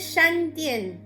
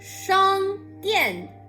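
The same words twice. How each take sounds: First: The first syllable ends in an 'an' sound. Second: The first syllable ends in an 'ang' sound. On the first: The speaker calls it wrong. "Many people say" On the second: The speaker calls it right. "This is on not an"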